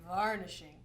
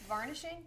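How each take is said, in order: First: The voice falls firmly at the end. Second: The voice rises at the end like a question.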